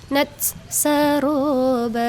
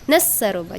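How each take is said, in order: First: The t is fully finished before saroba. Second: The t is dropped and runs into saroba. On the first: The speaker calls it right. "Selesaikan dulu nats" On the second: The speaker calls it wrong. "Jadi janganlah nasabroba, nasaroba. Jangan kayak gitu ya"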